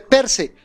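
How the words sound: The two words are run together quickly. "Cuando la pronuncian rápidamente dice per se. Lo pegan"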